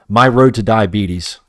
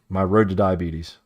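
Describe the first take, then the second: First: My road to diabetes said loud and slow, each word hit; slow punchline. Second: Said in the usual way. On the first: Shown as a demonstration. Streamer jokes to viewers about candy, slow and emphatic. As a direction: land "my road to diabetes" as a slow, heavy joke. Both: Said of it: "That's what I'm saying".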